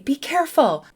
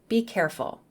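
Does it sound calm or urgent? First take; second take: urgent; calm. First: It is said with a sense of urgency. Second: It is said in a calm voice.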